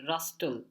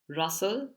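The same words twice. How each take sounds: First: The T sound is pronounced in the middle. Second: The T sound is silent in the middle. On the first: The speaker calls it wrong. "you might be tempted to pronounce it as rustle" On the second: The speaker calls it right. "but the T is silent"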